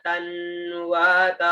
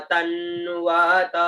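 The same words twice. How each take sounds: First: तन्वत repeated slowly; slow pronunciation. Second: तन्वत drawn out, half न joined to त; slow pronunciation. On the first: Teacher repeats तन्वत for students. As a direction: draw out तन्वत evenly. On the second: Teacher models तन्वत slowly. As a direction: stretch तन्वत. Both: Shown as a demonstration. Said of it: "त के साथ में आधा न".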